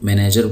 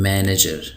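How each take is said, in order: First: It is said with an Urdu-style pronunciation. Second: It is said with an English-style pronunciation. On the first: The speaker calls it wrong. "उर्दू में उसको मैनेजर बोला जाता है" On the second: The speaker calls it right. "ये लफ्ज़ है मैनेजर"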